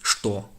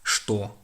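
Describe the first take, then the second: First: The word begins with an sh sound. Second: The same.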